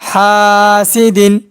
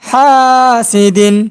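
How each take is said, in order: Both takes have the same delivery.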